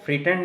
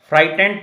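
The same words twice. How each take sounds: First: फ्रीटेंड said with a long ee vowel, as a mistake; wrong pronunciation shown. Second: फ्राइटेंड with a clear "ai" diphthong, FRAI-tend; teacher gives the right way, फ्राइटेंड as FRAI-tend; correct pronunciation. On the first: Teacher shows students the wrong way, then says it lightly. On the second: Teacher corrects students with a crisp model. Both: Shown as a demonstration. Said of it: "इसको फ्रीटेंड नहीं पढ़ते".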